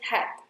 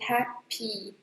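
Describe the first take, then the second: First: The word ends without the final 'ee' vowel. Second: The word ends with a tight 'ee' vowel. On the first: The speaker calls it wrong. "Some people say just hap" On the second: The speaker calls it right. "It should be happy. Don't forget that E sound"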